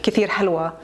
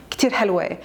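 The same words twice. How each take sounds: First: Said in the usual way. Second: حلوة with the final vowel turned to "ay", helway; Lebanese ending. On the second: Shown as a demonstration. Showing a Lebanese friend's dialect, حلوة ending in "ay". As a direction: end حلوة on an "ay" sound. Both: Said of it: "she would pronounce it kinda like a".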